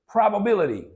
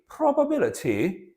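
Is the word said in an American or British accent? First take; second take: American; British. First: It is said in an American accent. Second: It is said in a British accent. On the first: "in the American accent" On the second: "let me read it in British"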